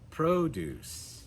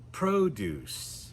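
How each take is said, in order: First: The stress is on the first syllable. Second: The same.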